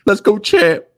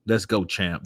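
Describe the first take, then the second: First: High, loud mocking cheer; high taunt. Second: Said in the usual way. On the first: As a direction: shout 'Let's go, champ' high to tease.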